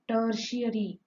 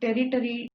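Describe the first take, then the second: First: The word is said like 'ter-shuh-ree'. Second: The word is said like 'territory'. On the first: The speaker calls it right. "See the word how it is pronounced" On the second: The speaker calls it wrong. "Most of the children do the mistake while pronouncing this word tertiary. Ter territory it is called by the children"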